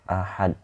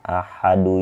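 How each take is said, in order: First: The word ends on a stopped consonant. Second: The word ends with an added vowel. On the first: The word stands at a stopping point. "Tetap kita itu baca ahad" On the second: The word is read mid-sentence without stopping. "ini di tengah"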